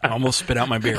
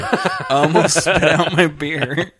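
First: Said in the usual way. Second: Slow, stretched out through laughter; wheezing it out while cracking up; laughing. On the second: Real, not acted. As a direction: repeat it helplessly laughing.

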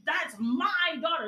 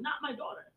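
First: "my" in "that's my daughter" slowed and leaned on as possession; stress on MY. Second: "not" in "not my daughter" punched while "my" stays light; stress on NOT. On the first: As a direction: hit "my" hard, slowly, to show ownership. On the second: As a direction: lean on "not" and let "my daughter" fall softly. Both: Shown as a demonstration. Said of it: "The emphasis on mine".

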